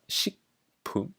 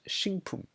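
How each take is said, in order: First: The word is pronounced just as it is spelled. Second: The word is pronounced with a sound change.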